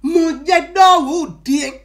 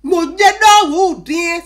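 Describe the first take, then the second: First: Raised exclamation at normal pace; 「Mon Dieu」を普通の速さで少し強く; plain translation. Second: Loud, slow drawn-out cry; 「non」を長く伸ばして大声で叫ぶ; original exclamation. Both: Shown as a demonstration. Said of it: "Si je vais traduire de façon terre à terre".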